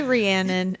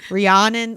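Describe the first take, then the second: First: "Rhiannon" as ree-AN-un; short-a pronunciation. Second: "Rhiannon" as ree-AHN-un. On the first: Co-host shows their habitual "Rhiannon", ree-AN-un. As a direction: say "Rhiannon" with the a of "cat". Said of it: "I say [name]". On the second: Co-host corrects "Rhiannon" to ree-AHN-un, like Rihanna. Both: Shown as a demonstration.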